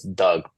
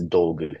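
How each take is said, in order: First: The name is said the usual English way. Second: The name is said with a Japanese-style vowel. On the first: "in our pronunciation" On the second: "the Japanese pronunciation is"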